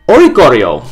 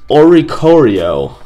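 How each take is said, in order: First: Oricorio said louder, in one quicker confident go; decided pronunciation. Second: Oricorio sounded out slowly and carefully; tentative pronunciation. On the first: Host settling on how to say a card's name, Oricorio said decisively. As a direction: commit to Oricorio with a firm falling finish. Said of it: "That's how I'm gonna say it". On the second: Host unsure how a card's name is said, trying Oricorio slowly. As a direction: feel your way slowly through Oricorio. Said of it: "I think that's how you say it". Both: Real, not acted.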